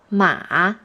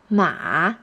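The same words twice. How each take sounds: No difference in how they are said.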